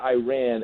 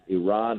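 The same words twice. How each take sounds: First: It is said with the American pronunciation. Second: It is said with the non-American pronunciation. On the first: The speaker calls it wrong. "when Americans call it Iran. It's not Iran" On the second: The speaker calls it right. "Let's pronounce the countries ... right"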